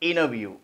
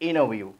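No difference in how they are said.

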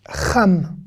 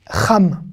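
Both takes have the same delivery.

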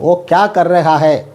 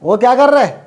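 First: Every syllable of the phrase is said in full. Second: The ending is squeezed into one short syllable. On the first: This is the proper, standard way to say it. "കറക്റ്റായിട്ട് പറയുകയാണെങ്കിൽ" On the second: This is casual, everyday local speech. "ലോക്കലായിട്ട് കൊളോക്കിലായിട്ട് പറയുമ്പോൾ"

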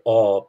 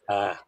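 First: The long a sounds like 'aw', Munster-style. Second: The long a sounds like 'ah', Ulster-style.

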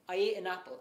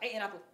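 First: It is spoken at a normal pace. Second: It is spoken very fast.

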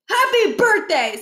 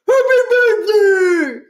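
First: It is said in a clear, normal voice. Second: It is said muffled, as through a mouthful of cake.

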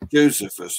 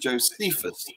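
First: The stress is on the first syllable. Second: The stress is on the second syllable.

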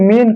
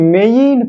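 First: The vowel is a plain short e sound. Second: The vowel glides from e to i. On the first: It sounds like a different word. The speaker calls it wrong. "এটাকে আমরা অনেকে এটাকে মেন করে দেয়" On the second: It keeps the spelling clear. The speaker calls it right. "আমি যদি এটাকে মেইন করে দিই"

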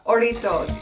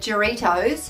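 First: It starts without an English J sound. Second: It starts with an English J sound. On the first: The speaker calls it right. "Is that better?" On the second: The speaker calls it wrong. "last time I said Jarritos in my very, very Aussie accent"

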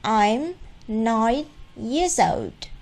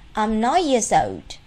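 First: It is read slowly, word by word. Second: It is read quickly and smoothly. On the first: "cô đã đọc cho chúng ta bài đối thoại này với giọng rất là chậm, từng từ một" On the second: "Bây giờ cô sẽ đọc nhanh một lượt"

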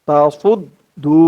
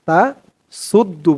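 First: The s sound is heavy, with a full mouth. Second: The s sound is light, like a plain s. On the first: The speaker calls it right. "এই মুখটা একটু ভরপুর হয়ে যাবে এমন মনে হবে" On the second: The speaker calls it wrong. "তা সুদ্দু বলা যাবে না, সু বললে কিন্তু সিনের উচ্চারণ চলে আসবে"

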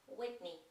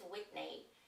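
First: The name is said with an English pronunciation. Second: The name is said with a Polish-style pronunciation. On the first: The speaker calls it right. "to jest Whitney" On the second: The speaker calls it wrong. "To nie jest Whitney"

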